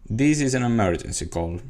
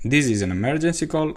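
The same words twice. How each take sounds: First: The pitch falls at the end. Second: The pitch rises at the end. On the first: "the tone of voice going down" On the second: "I used the increasing tone of voice at the end of the sentence"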